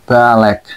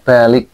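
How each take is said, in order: First: The second vowel is pronounced as e. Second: The second vowel is pronounced as i. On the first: "maka dibaca e" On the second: "jadi dibacanya i"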